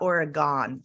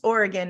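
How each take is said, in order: First: Pronounced the way East Coast speakers say it. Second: Pronounced the way local Oregon speakers say it. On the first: The speaker calls it wrong. "not Oregon, like people on the East Coast say" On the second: The speaker calls it right. "it's pronounced Oregon"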